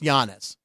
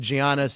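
First: The name is said with a Greek-style pronunciation. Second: The name is said with an English-style pronunciation. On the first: The speaker calls it right. "It's Giannis" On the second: The speaker calls it wrong. "I got lectured when I said Giannis"

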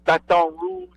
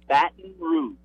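First: The second syllable sounds like 'ton'. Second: The second syllable sounds like 'tin'. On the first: It is how an outsider says the name. The speaker calls it wrong. "he did it to be funny. That ain't how we say it" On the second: It is how locals say the name. The speaker calls it right. "We say Baton Rouge, like Baton, B-A-T-I-N"

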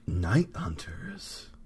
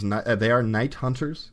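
First: It is said in a dramatic movie trailer voice. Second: It is said in an ordinary speaking voice.

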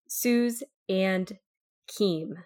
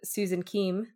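First: The words are said slowly and separately. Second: The words run together quickly as one. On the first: "I'm going to say it a little bit slower" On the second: "instead of me just running them all together"

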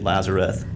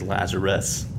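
First: The name ends with a th sound. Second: The name ends with an s sound. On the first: The speaker calls it wrong. "You say Lazareth, which sounds like an 80s metal band" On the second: The speaker calls it right. "The way to say it is Lazarus. With an S"

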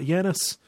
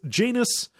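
First: The name is said like the Greek god's name. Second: The name is said to rhyme with 'anus'. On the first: This is the usual pronunciation of the god's name. The speaker calls it right. "It's not Janus. You know, it's not like the Greek god" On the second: This is how the show's characters say the name. The speaker calls it wrong. "It's Janus, like anus, is how they say it"

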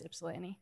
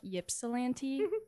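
First: The name begins with an 'ip' sound. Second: The name begins with a 'yip' sound. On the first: The speaker calls it right. "It's Ypsilanti" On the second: The speaker calls it wrong. "It starts with a Y, so everyone's like Ypsilanti. ... That's incorrect"

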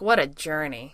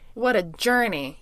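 First: The voice falls off weakly on journey. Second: The word journey is punched up with emphasis.

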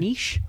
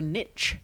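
First: Niche is said the British way. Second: Niche is said the American way.

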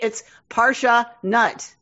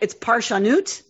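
First: It is pronounced the English way. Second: It is pronounced the Hebrew way. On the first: It sounds like being nuts for Torah. "if you're pronouncing it in an English way" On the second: It names the work of interpreting Torah. "if you just look at it"

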